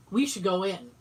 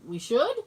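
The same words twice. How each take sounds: First: Said in the usual way. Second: "should" lifted into a rising question; questioning echo. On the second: Retold or imitated. Teller echoing friend's suggestion, questioning.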